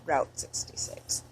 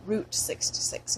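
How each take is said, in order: First: "Route" said to rhyme with out; route as rout. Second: "Route" said like "root". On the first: Rejecting this way for a highway, "Route" as "rout". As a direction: say "Route" with an ow vowel, softer. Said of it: "not Route sixty-six". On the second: Talking about a highway, "Route" as "root". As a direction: say "Route" with an oo vowel. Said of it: "I say route". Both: Shown as a demonstration.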